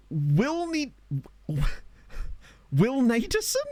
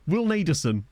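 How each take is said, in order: First: High, slow, drawn-out questioning of the name "Will Naderson?"; puzzled sounding out. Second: Said in the usual way. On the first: Pretend. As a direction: stretch "Will Naderson?" out high, unsure how to say it.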